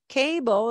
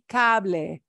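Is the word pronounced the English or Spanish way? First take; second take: English; Spanish. First: The word is said with English pronunciation. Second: The word is said with Spanish pronunciation. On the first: The speaker calls it wrong. "we won't pronounce it like cable" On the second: The speaker calls it right. "It'll be cable"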